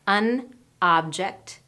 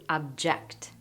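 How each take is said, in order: First: The stress is on the first syllable. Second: The stress is on the second syllable. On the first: It is a noun. "An object is a noun" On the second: It is a verb. "To object is a verb. And we've switched which syllable gets stressed"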